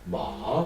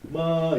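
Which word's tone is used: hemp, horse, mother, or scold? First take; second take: horse; mother. First: It is said with the tone of 'horse'. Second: It is said with the tone of 'mother'. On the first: It means horse. "마 그러면 우리가 타고 다니는 말" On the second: It means mother. "마 이거는 엄마"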